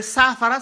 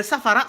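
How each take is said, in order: First: Long first aa in "saafara"; "saafara" with its first vowel held, louder; lengthened vowel. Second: Said in the usual way. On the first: Shown as a demonstration. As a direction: stretch the opening a of "saafara". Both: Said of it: "ici, c'est tiré".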